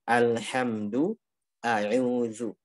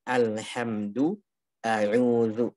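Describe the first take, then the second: The two takes are said the same way.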